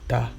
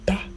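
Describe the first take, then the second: First: The syllable is said on a mid pitch. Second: The syllable is said on a high pitch. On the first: The head. "it is ta. That is the head" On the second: To draw. "So there are high tones"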